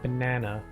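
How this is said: It is said with an American accent. "over there you say ban banana"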